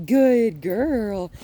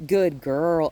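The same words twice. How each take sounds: First: Loud praise with lifted pitch; raised pitch. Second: Said in the usual way. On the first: Shown as a demonstration. Trainer rewards the returning dog, raised-pitch praise. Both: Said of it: "when I raise the pitch of my voice".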